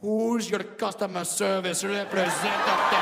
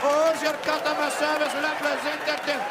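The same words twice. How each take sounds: First: Hammed-up Indian-accented dirty talk; mock-sexy Indian accent. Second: Put-on high-pitched, forceful Indian-accented cry; hammed-up Indian-accented climax; climactic Indian accent. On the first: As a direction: croon it suggestively in an Indian accent. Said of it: "whisper something soft and sexy". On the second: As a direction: belt it out in a mock Indian accent. Climax of Indian dirty talk.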